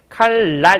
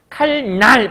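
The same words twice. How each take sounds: First: The second syllable starts with an l sound. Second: The second syllable starts with an n sound. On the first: The speaker calls it right. "이렇게 발음하죠" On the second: The speaker calls it wrong. "칼날 발음하지 않잖아"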